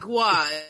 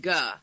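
First: The syllable has a w glide after g. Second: The syllable has no glide after g. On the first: The speaker calls it wrong. "He says it's not gua" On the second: The speaker calls it right. "it's ga"

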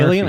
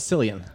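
First: The name begins with a hard k sound. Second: The name begins with a soft s sound. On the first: The speaker calls it right. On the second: The speaker calls it wrong.

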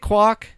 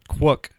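First: The vowel sounds like the one in quack. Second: The vowel sounds like the one in book. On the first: Other people say the name this way. The speaker calls it wrong. "These same people on the East Coast that mispronounce Kobol call him Quack" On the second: The owner says his name this way. The speaker calls it right. "when he says his own name, he says Quook"

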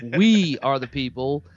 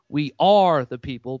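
First: The stress falls on the word people. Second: The stress falls on the word are. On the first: The focus is on who the people are. "is focus on the actual people" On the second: It insists that they really are people. "proving that they actually are people"

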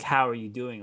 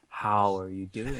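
First: It is asked as a casual, everyday greeting. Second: It is asked with deep, earnest concern.

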